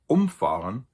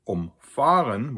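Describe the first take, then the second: First: The stress is on the first syllable. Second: The stress is on the second syllable. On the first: A vehicle knocks someone over. "which is a separable prefix verb" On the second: A vehicle goes around someone to avoid them. "where the stress is on the fa"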